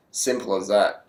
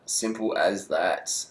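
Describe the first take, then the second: First: Said in the usual way. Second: "Simple as that" slow and quiet, drawn out; slow emphatic repeat. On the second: Real, not acted. Wrapping up his Froome prediction, slow emphatic repeat. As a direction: let "Simple as that" land slowly and softly.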